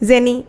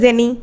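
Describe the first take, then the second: Both takes have the same delivery.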